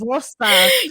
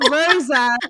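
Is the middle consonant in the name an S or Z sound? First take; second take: S; Z. First: The middle consonant is a hissing S sound. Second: The middle consonant is a buzzing Z sound. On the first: The speaker calls it right. "it's not Rosa, it's" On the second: The speaker calls it wrong. "the S sound like a Z"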